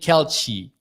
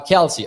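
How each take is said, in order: First: The middle consonant sounds like ch. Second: The middle consonant sounds like s. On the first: The speaker calls it wrong. "did I say I was saying Kelchi?" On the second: The speaker calls it right. "Kelsey is how it sounds"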